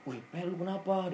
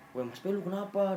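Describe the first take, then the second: First: Higher, startled, worried question; a touch of alarm, pitched up; imitating a scared friend. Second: Mock frightened call, pitched up; imitating a scared friend. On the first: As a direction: mimic a frightened tentmate waking. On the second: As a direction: press him again, more alarmed. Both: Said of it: "si Andre ketakutan".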